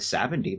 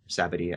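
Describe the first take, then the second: First: The name has an n sound before the d. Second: The name has no n sound before the d.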